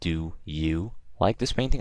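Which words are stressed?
do you. The words do you are stressed. The speaker calls it wrong. "I don't say"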